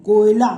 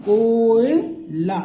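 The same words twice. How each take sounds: First: Said in the usual way. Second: कोयला drawn out very slowly and louder; slowly stretched demo. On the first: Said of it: "देखो". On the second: Shown as a demonstration. Teacher to students, pronouncing कोयला very slowly and louder. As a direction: stretch every sound of कोयला. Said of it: "का बना कोयला".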